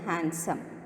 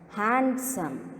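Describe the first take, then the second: First: The d sound in the middle is silent. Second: The d sound in the middle is pronounced. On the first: The speaker calls it right. "Keep the D silent" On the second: The speaker calls it wrong. "you should not pronounce as handsome"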